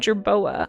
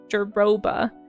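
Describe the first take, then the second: First: The b sound comes before the o. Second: The b sound comes after the o. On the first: The speaker calls it right. "but it's actually a jerboa" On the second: The speaker calls it wrong. "pronouncing it jer jeroba"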